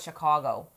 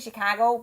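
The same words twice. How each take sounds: First: The middle vowel sounds like 'aw'. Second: The middle vowel sounds like 'ah'. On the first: This is how locals say it. The speaker calls it right. "I know it's Chicago" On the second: This is how outsiders say it. The speaker calls it wrong. "I say it wrong"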